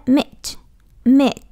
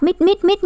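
First: "meet" with the ee held long; long vowel. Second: "meet" quick and higher, vowel cut short; wrongly short vowel. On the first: Teacher correcting the short reading, long-vowel "meet". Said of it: "Đó, đọc dài đó". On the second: Teacher warning students off the mistake, short-vowel "meet". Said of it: "đọc meet là sai đó". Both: Shown as a demonstration.

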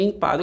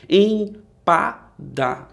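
First: Said in the usual way. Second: "Empada" very slowly, split into em, pa, da; syllable by syllable. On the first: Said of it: "faço aquela divisão". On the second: Shown as a demonstration. Teacher dividing a word for pupils, "Empada" syllable by syllable. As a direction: break "Empada" into three separate beats. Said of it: "eu faço aquela divisão".

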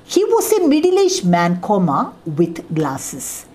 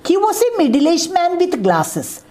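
First: With the comma. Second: One smooth run, no pause before with glasses; without the comma. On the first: Teacher reads the comma version to the class, breaking after man. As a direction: pause at the comma, then fall on with glasses. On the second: Teacher reads the version without the comma, all in one breath. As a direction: read "He was a middle-aged man with glasses" in a single unbroken line. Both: Shown as a demonstration. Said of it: "Remove the comma".

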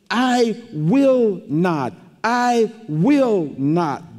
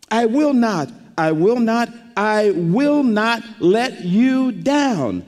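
First: Slow, each word weighted: "I will not, I will not"; emphatic double negative. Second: Building "I will not" three times, stress on "will", last slow; emphatic triple promise. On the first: Preacher stressing God's promise to the congregation, slow and emphatic. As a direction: lean hard on "will" both times, slowly. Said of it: "That's a double negative". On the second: Preacher driving home God's triple promise to the church, emphatic. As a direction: hammer "will" each time, draw out the last. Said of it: "triple promise". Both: Shown as a demonstration.

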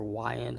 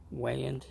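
First: Weiand said as WHY-end; first syllable rhymes with "eye", as in "Y end"; alternative pronunciation guess. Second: Weiand said as WAY-end; first syllable rhymes with "day", as in "way end"; first pronunciation guess. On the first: Offering viewers the other way to say the intake's brand, "Y end". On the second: Offering viewers a guess at the intake's brand name, "way end". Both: Shown as a demonstration. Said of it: "not sure how the exact pronunciation".

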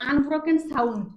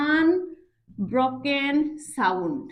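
First: Said in the usual way. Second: "unbroken sound" very slow, piece by piece; clear and measured. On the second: Shown as a demonstration. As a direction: spell out "unbroken sound" with pauses. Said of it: "পরিষ্কার করে বলো". ("Unbroken sound" ধীরে, থেমে থেমে)

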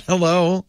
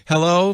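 First: High mock assistant calling hello, level; a flat, higher chirped Hello?; imitating Siri. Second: High mock assistant, Hello? rising at the end; a higher Hello? lifted like a question; imitating Siri. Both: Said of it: "Siri goes".

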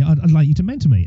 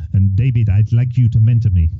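First: Said in the usual way. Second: Lightly attempted Kenyan accent. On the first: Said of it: "he said to me". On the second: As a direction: have a rough go at a Kenyan accent. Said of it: "That was my Kenyan accent".

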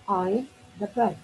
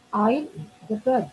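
The two takes are said the same way.

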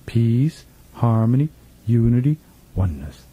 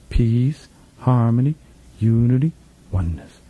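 No difference in how they are said.

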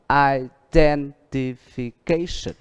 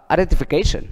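First: Very slow, stretched syllables, stress on the third syllable; teacher modelling the word slowly; slow model reading. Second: Quick, run-together, natural speed; fast reading. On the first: (đọc chậm, kéo dài, nhấn rõ âm tiết) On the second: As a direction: say it fast like a native speaker. (đọc nhanh một chút) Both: Shown as a demonstration. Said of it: "nếu như thầy đọc nhanh một chút".

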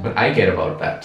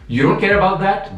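First: Said in the usual way. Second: High, put-on voice mimicking the hater; mock them with a high, sing-song imitation; sarcastic high-pitched parody of a commenter. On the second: Mocking the commenter's stance.

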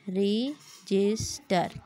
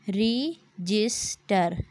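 First: Said in the usual way. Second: रजिस्टर stretched very slowly, syllable by syllable; split into syllables. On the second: Shown as a demonstration. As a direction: clap out रजिस्टर one beat per syllable. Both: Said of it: "clap your hands to count the number of syllable".

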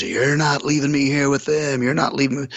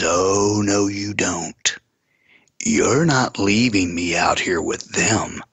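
First: Higher-pitched imitation of a possessed woman; retold eerie high protest; weird-noised woman. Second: Slow, drawn-out warning; slow retold refusal; retold menacing refusal. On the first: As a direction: mimic her odd, insistent protest, pitched up. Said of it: "she's making all these weird noises". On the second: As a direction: stretch out the words as an imitated threat. Retells possessed woman's refusal to stay.

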